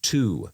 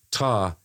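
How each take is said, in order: First: "to" with a clear "oo" vowel; full "to". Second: "ta" with a short neutral vowel; reduced "to". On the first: Contrasting two forms for co-host, fully pronounced "to". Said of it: "the difference between ta and to". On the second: Contrasting two forms for co-host, reduced "ta". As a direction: say "to" as a casual "tuh". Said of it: "split the difference between ta and". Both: Shown as a demonstration.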